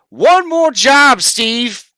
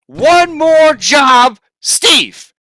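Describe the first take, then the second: First: Slow, loud, high singsong mimicry of the witch; mocking quote. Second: Very slow, drawn-out shouted mimicry; mocking shout. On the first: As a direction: parrot her words back with scorn. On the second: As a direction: hammer the quote back at her, yelling. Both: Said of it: "You said".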